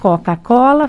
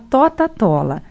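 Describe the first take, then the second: First: The word uses K sounds at syllable starts. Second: The word uses T sounds at syllable starts. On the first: The speaker calls it right. "em vez de falar Coca-Cola" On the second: The speaker calls it wrong. "A criança que troca o K pelo T"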